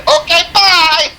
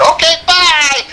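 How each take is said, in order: First: High, slow singsong through a laugh; laughing singsong bye to the trooper. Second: High singsong mock goodbye; sarcastic singsong bye to the trooper; mock cheerful. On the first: Retold or imitated. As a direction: repeat the goodbye, laughing. Repeats it, laughing. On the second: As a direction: wave him off sweetly. Waving off the cop.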